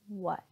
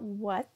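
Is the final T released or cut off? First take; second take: cut off; released. First: The final T is cut off in the throat, unreleased. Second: The final T is fully released with a puff of air. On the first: The speaker calls it right. "but the stop T" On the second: The speaker calls it wrong. "Not what, that would be the true T"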